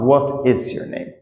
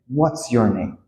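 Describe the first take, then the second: First: The words 'what is' are said in full. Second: The words 'what is' are contracted to 'what's'. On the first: The speaker calls it wrong. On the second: The speaker calls it right.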